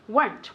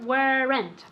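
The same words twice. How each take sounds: First: The word is spoken with one syllable. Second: The word is spoken with two syllables. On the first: The speaker calls it right. "One syllable" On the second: The speaker calls it wrong. "Never, ever, ever weren't"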